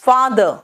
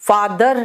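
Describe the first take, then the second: First: The final R is soft and barely heard. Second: The final R is pronounced with force. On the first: The speaker calls it right. "आर last में आता है वो बिल्कुल soft हो जाता है" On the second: The speaker calls it wrong. "फादर नहीं"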